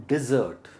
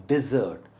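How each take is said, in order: Both takes have the same delivery.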